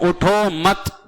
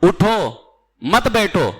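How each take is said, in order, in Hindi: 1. दूसरे शब्द के ठीक बाद विराम है। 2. पहले शब्द के ठीक बाद विराम है। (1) "उठो पे ना रुकूं बल्कि मत पे रुक जाऊं" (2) "अगर मैं पहले रुक जाऊं"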